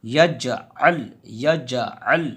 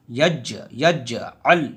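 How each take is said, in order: First: यजअल run together, no knock on ज; the wrong reading, यजअल in one smooth go; wrong qalqala. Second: यज with the ज bounced, then यजअल slowly; qalqala on jeem. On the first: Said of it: "यजअल नहीं कहेंगे". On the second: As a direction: knock the ज of यज, then join. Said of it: "यज पे कलकला होगा". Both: Shown as a demonstration.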